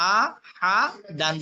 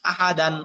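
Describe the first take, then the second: First: আ, হা, দান one syllable at a time; broken syllables. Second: Said in the usual way. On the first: Shown as a demonstration. Teacher showing learners broken pronunciation, syllable by syllable. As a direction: split আ, হা, দান with a pause after each. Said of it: "ভাঙ্গা উচ্চারণ করবেন একটা একটা করে". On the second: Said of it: "ভাঙ্গা উচ্চারণ একটা একটা করে পড়লেন".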